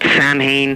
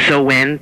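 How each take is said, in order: First: The word is said as sam-hain, following the spelling. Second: The word is said as so-en, without the h. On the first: This is the common way most people say it. The speaker calls it wrong. "when people pronounce Samhain instead of" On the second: This is the traditional Celtic way to say it. The speaker calls it right. "There's a proper way to pronounce it"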